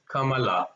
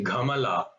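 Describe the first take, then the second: First: "Kamala" starting with a voiceless k; correct consonant. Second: "Gamala" starting with a voiced g; mixed-up consonant. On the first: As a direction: say "Kamala" with a clean k, not g. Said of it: "which is not right. It's Kamala". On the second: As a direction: say "Gamala" with g in place of k. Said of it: "You should not say Gamala". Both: Shown as a demonstration.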